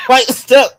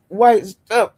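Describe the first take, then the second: First: Laughing, mock tone. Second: Said in the usual way. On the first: Laughing repeat of slur.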